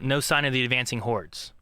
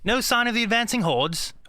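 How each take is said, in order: First: It is said in a plain everyday accent. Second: It is said in a light British accent.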